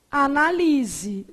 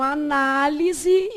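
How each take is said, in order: First: "Analise" stressed on LI, slow; stress on third syllable. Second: "análise" stressed on NÁ; stress on second syllable. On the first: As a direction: say "Analise" as a-na-LI-se, slowly. (tônica em LI: "Analise") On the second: (tônica em NÁ: "análise") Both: Shown as a demonstration. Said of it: "dependendo da pronúncia da palavra".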